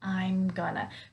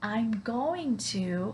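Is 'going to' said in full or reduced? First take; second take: reduced; full. First: Going to is reduced to one short word. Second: Going to is said fully, each word distinct. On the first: "when I reduce it, it's going to sound like I'm gonna" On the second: "If I say I'm going to"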